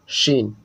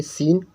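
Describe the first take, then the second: First: Teacher models शीन with a full sh; clear sh sound. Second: सीन said with a crisp dental s, not sh; teacher models सीन with a sharp hissing s; clear s sound. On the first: Teacher showing students the big sheen letter, hushing sh. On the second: Teacher showing students the small seen letter, crisp s. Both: Shown as a demonstration. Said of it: "छोटी सीन और बड़ी शीन".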